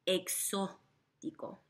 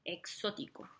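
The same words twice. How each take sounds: First: Exótico said slowly, O stressed; Exótico slow, stressed syllable O. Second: Exótico with the middle O stressed; Exótico, stressed on the second syllable. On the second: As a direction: lean on the O of Exótico. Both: Shown as a demonstration. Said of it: "notice how there's an emphasis on that O".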